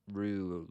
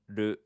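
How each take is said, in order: First: A long English-style 'roo', as in kangaroo. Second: A short, crisp syllable with a tapped r. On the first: The speaker calls it wrong. "not roo, like kangaroo" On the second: The speaker calls it right. "And then we have du"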